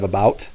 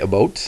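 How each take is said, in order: First: It is said with a non-Canadian accent. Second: It is said with a Canadian accent.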